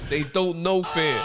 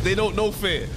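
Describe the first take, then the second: First: Slow and weighty, each word leaned on; dragged-out ominous repeat; slow emphatic. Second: Said in the usual way. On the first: Real, not acted. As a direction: lay it down slowly like a warning. Second slower emphatic take.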